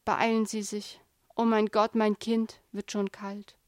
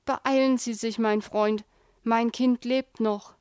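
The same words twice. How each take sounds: First: The urgency drains out of him; despairing plea. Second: Loud, urgent plea to hurry; urgent plea, last words slowed; urgent pleading. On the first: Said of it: "Schließlich". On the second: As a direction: beg the driver to hurry, pressing. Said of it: "flehte der Mann". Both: A narrator's reading.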